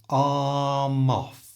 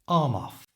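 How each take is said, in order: First: It is said slowly, sound by sound. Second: It is said at a normal speaking speed.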